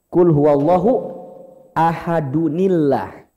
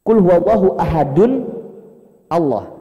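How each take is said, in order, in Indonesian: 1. Ahadun disambung ke Allah dengan 'ni' penyambung. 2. Ahadun dan Allah diucapkan tanpa 'ni' penyambung.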